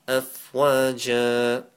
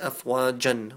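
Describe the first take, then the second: First: The word ends on a vowel, no n. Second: The word ends with an n sound. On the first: The speaker calls it right. "how to stop at the end of verses" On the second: The speaker calls it wrong. "We don't say afwajan"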